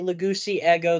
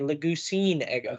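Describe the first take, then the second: First: Two vowels meet directly with no consonant between. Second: An n sound links the two words together. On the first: The speaker calls it wrong. "They don't like saying that" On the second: The speaker calls it right. "They would want to say Lagusine ego"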